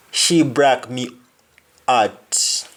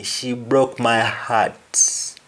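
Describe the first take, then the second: First: "broke" as "brak", "heart" as "art"; Jamaican pronunciation. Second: "broke" with O, "heart" with H; slowly, "my heart" with the H sounded; English pronunciation. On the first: Teacher showing the Jamaican sentence, H dropped. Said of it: "You simply say break". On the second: Teacher giving the English sentence, H sounded. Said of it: "To break is to break". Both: Shown as a demonstration.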